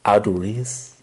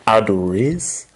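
The two takes are said the same way.

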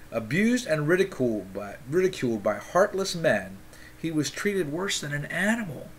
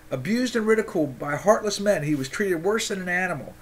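First: Said in the usual way. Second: Fired-up reread. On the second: Acted. Re-reads the passage after the outburst.

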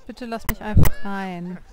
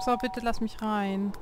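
First: Much louder, insistent "bitte lass mich einfach rein"; louder plea. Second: Said in the usual way. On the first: Real, not acted. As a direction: raise the voice, begging to be let in. Pleading again, louder.

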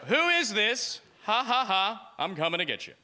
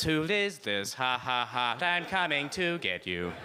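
First: Teasing singsong, starting high then dropping; playful mock menace. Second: Stiff robotic word-by-word delivery; automated voice message. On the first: Joking text to the girl, playful mock menace. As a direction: play a goofy creepy prankster. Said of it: "I text her, I go". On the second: Acted. His text read to her by machine, automated voice. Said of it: "converted into an automated voice message".

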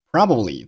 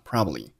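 First: Said in the usual way. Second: "probably" reduced, lower and softer; weak form. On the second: Shown as a demonstration. Teacher showing learners weak forms, "probably" lightly reduced. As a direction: shorten the middle of "probably". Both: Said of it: "Probably做了弱读".

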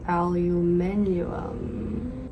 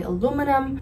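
First: Aluminium said slowly with five syllables, al-yoo-MIN-ee-um; slow British-style aluminium; Australian aluminium. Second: Aluminum said with four syllables, a-LOO-mi-num; American aluminum, stress on LOO. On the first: Comparing for viewers the Australian word aluminium. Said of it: "in Australia, they say". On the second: An American vlogger giving her own aluminum. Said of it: "I'm American, so I say". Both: Shown as a demonstration.

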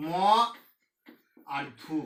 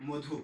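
First: "ম", long pause, then "ধু"; split into syllables. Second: Said in the usual way. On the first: Shown as a demonstration. Teacher breaking a word for students, split into syllables. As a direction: break "মধু" as "ম ... ধু". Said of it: "ভাঙার আগে". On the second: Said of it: "যেমন মধু".

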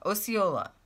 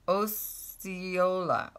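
First: Said in the usual way. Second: Osceola spoken very slowly as oh-see-OH-la, syllable by syllable; sounding it out. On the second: Shown as a demonstration. Checking how a viewer's town Osceola is said, slow and careful. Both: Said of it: "I think I say it like that".

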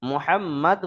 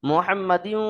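First: "মুহাম্মাদ" ending on a closed d; stopped ending. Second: "মুহাম্মাদিউ" ending in a nasalised -diu; joined tanween ending. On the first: Teacher showing how to pause, "মুহাম্মাদ" closed on final d. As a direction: stop "মুহাম্মাদ" dead on the d, no tanween. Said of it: "বলে ওয়াকফ করতে হবে". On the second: Teacher showing the wrong pause, "মুহাম্মাদিউ" with nasal -diu ending. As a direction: run the end of "মুহাম্মাদিউ" into a humming u. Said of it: "বলে ওয়াকফ করলে হবে না". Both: Shown as a demonstration.

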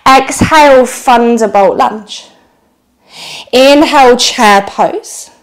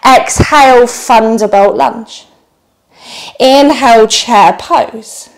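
The two takes are said the same way.

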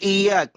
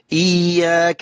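First: إياك with a light single y; missing shadda. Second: إياك with a held, doubled y. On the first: Retold or imitated. Teacher mimics a wrong reading, single light y in إياك. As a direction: say إياك quickly, y not doubled. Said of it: "لا، إياك غلط". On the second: Shown as a demonstration. Teacher demonstrates the shadda, held double y in إياك. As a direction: lean on the y in إياك. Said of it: "تشدد الياء".

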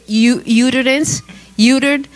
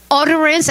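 First: Uterance said YOO-ter-ance like uterus; mispronounced word. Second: Said in the usual way. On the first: Retold or imitated. Preacher retelling her slip before a big church, mispronouncing. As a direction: stumble into uterance, utered. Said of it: "Power in the uterus". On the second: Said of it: "it was utterance".

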